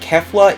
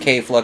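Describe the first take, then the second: First: The first syllable does not sound like 'kale'. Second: The first syllable sounds like 'kale'. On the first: The speaker calls it wrong. "they pronounce it Kefla even though that's not how it's pronounced" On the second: The speaker calls it right. "it's pronounced K-Fla because kale"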